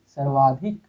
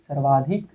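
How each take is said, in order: Both takes have the same delivery.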